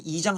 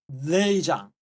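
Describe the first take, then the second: First: The word begins directly with a vowel. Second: The word begins with an L sound. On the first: It is the standard South Korean form of the word. The speaker calls it right. "그냥 편하게 이장 하면 될 거라" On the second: It is the North Korean form of the word. The speaker calls it wrong. "발음하려면 혓바닥을 이 이 입천장에 대야 돼"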